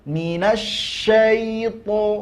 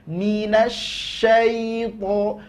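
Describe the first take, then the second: The two takes are said the same way.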